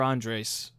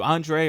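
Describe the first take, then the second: First: The final S sound is clearly pronounced. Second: The final S sound is left silent.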